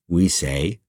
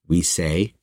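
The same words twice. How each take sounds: No difference in how they are said.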